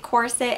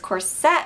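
First: The ending is a short, reduced 'sit' sound. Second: The ending is a full, stressed 'set' sound. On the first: The speaker calls it right. "I say corset" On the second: The speaker calls it wrong. "corset would be spelled with like two T's and an E at the end"

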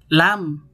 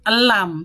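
First: The word starts directly with the L sound. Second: An extra vowel sound comes before the L. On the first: The speaker calls it right. "tapi lam" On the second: The speaker calls it wrong. "Bukan elam"

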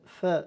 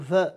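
First: The f sound is voiceless and breathy. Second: The f sound is voiced with a buzz. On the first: The speaker calls it right. "ف ف ف مهموسة" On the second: The speaker calls it wrong. "فلا نقول ف فيومئذ، هذه خطأ أدائي"

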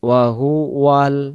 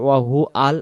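First: The words are joined smoothly with a w sound. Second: The words are broken apart without the w sound. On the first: The speaker calls it right. "ওয়াহু ওয়াউলাম জবর ওয়াল" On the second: The speaker calls it wrong. "উচ্চারণটা যেন ওয়াহু আল না আসে"

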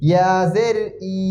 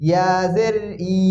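The two takes are said the same way.

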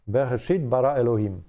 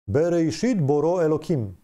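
First: The second word has a-sounds, not o-sounds. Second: The second word has o-sounds, not a-sounds.

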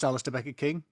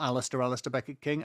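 First: The name is said in a plain, ordinary way. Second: The name is said in a dramatic, suave way. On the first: This is simply the speaker's name. The speaker calls it right. "It's just Alistair Beckett King" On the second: The name is introduced with mock grandeur. The speaker calls it wrong. "I did a bit of a James Bond thing unintentionally there"

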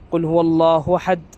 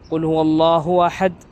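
Both takes have the same delivery.

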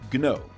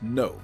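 First: The word starts with a hard G sound. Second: The word starts with an N sound. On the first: The speaker calls it right. "with a hard G" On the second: The speaker calls it wrong. "not no"

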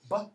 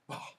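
First: The b has no breathy puff after it. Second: The b is followed by a breathy puff. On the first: "Become Proto-Germanic, unaspirated, voice stops" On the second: "Indo-European, aspirated, voiced stops"

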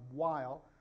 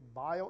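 First: The name begins with a W sound. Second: The name begins with a V sound. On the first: This is an English-style pronunciation. The speaker calls it wrong. "and not while" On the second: This is the original German pronunciation. The speaker calls it right. "We should say vial"

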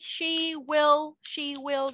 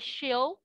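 First: Both words are said in full. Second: The words are contracted into one syllable. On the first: "she will đúng không?" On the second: "Thì lúc đó mình đọc là she'll"

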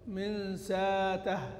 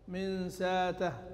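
The two takes are said the same way.

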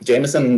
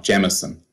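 First: The first syllable does not sound like 'gem'. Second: The first syllable sounds like the word 'gem'. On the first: "Jameson for me is an American parlance" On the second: "Jameson like a diamond. Like a diamond is a gem"

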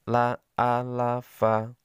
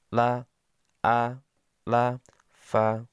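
First: The syllables are read quickly. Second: The syllables are read slowly. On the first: "Dibaca cepat" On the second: "yang pertama pelan"

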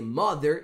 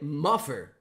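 First: The middle consonant is a th sound. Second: The middle consonant is an f sound. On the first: The speaker calls it right. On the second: The speaker calls it wrong.

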